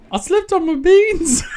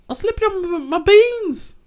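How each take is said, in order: First: Put-on high, laughing Aussie kid voice; retry the Aussie child line, pitched up; second try at Australian accent. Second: Put-on high, childlike Aussie voice; a little kid's Australian, pitched way up; Bingo's Aussie kid voice; attempted Australian accent. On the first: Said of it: "I can't do it". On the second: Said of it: "I can't do an Australian accent".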